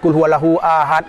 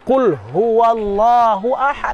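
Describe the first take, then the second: First: The letters are articulated carelessly and inaccurately. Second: The letters are articulated carefully and precisely. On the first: The speaker calls it wrong. "kan rusak itu" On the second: The speaker calls it right. "Seharusnya dibaca"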